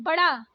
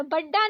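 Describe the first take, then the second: First: बड़ा with light flapped ड़; correct flapped ड़. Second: बड्डा with hard, doubled ड; wrong doubled D. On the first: Teacher correcting learners, flapped बड़ा. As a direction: flick the tongue on ड़ in बड़ा. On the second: Teacher showing learners the mistake, hard बड्डा. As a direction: hit a stopped double D in बड्डा. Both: Shown as a demonstration. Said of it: "नहीं".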